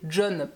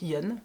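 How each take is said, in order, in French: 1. Le nom commence par un son j. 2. Le nom commence par un son y. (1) "que j'avais l'habitude d'appeler John parce que ça s'écrit J O N" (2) "si on le prononce correctement à l'espagnol"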